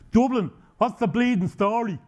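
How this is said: It is said in a strong Dublin accent.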